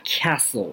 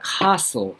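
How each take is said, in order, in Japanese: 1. アメリカ英語のアクセントで発音されています。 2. イギリス英語のアクセントで発音されています。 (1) "アメリカ的な英語ではcastle っていうふうに発音される" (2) "イギリス的な英語ではcastle ですね"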